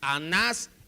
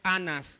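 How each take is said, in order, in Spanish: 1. La tónica está en la última sílaba. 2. La tónica está en la primera sílaba. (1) "Llevan acento ambos en la última sílaba" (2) "no es Anas"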